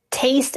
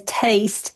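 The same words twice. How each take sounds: First: Said in the usual way. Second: TASTE with its vowel lowered, toward "tye-st". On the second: Shown as a demonstration. Linguist explaining Georgia baby boomer speech, Southern lowered vowel. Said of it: "lowered in our mouths".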